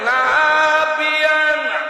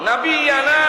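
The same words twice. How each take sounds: First: The first syllable is drawn out long. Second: The first syllable is short and plain. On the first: The meaning changes to something else. The speaker calls it wrong. "আর না বিয়ানা যে লম্বা করলেন, অর্থ যে বদলে গেছে" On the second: It means our prophet. The speaker calls it right. "নাবিয়ানা শব্দটা শেষে নুন লম্বা"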